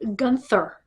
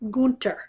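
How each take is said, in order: First: The middle consonant is a th sound. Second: The middle consonant is a plain t sound. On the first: The speaker calls it wrong. "It is not Gunther" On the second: The speaker calls it right. "The H is silent"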